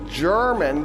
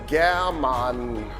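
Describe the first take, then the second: First: It is pronounced the way a French speaker would. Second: It is pronounced the way a German speaker would. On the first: "we pronounce it like a French person would" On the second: "a German says German"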